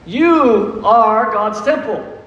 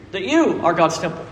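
First: "You" stretched out and leaned on, whole line slowed right down; slow, weighty preacher emphasis on "You"; slow emphatic stress on YOU. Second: Said in the usual way. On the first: Shown as a demonstration. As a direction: drive home "You are God's temple" word by word, hitting "You". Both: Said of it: "Oh, you didn't hear that one?".

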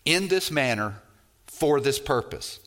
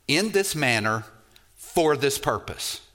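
No difference in how they are said.

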